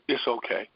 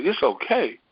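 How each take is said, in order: First: Soft retold inner voice; gently hushed reassurance; little voice. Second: Higher, fuller-voiced echo of the little voice; retold wondering echo; echoed reply. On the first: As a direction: say it quietly, like a small voice within. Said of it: "whisper, that same little voice". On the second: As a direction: repeat it back aloud, pitched up. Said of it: "And I said".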